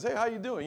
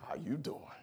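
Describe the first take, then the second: First: It sounds friendly and harmless. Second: It sounds menacing and threatening.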